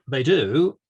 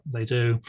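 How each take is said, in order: First: Drawn-out, louder "they do" with a doubtful rise; hedging qualification. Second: Said in the usual way. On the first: Real, not acted. Engineer qualifying his answer on ring circuits, hedging. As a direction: say "they do" as if a but is coming. Hedges the answer just given.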